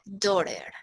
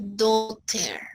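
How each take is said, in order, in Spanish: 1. Se dice con acento americano. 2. Se dice con acento británico. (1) "Si quiero hacer una pronunciación americana" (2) "Si quiero hacer una pronunciación inglesa"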